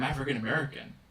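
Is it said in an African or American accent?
American. It is said in a plain American accent. The speaker calls it wrong. "you're actually pronouncing it incorrectly"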